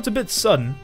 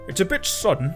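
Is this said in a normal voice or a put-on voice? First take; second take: normal; put-on. First: It is said in the speaker's ordinary voice. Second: It is said in a put-on character voice. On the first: The speaker calls it wrong. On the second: The speaker calls it right.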